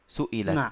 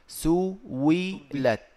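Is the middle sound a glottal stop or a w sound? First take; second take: glottal stop; w sound. First: The middle consonant is a glottal stop. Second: The middle consonant is a w sound. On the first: "همزة مكسورة وقبلها مضموم" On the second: "تقلب الهمزة المكسورة واوا فتصير"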